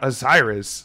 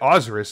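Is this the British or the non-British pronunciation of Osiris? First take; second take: British; non-British. First: It is said the usual British way. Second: It is said the way the original locals say it. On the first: The speaker calls it wrong. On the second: The speaker calls it right. "that's how people that live in the country where that religion was followed pronounces it"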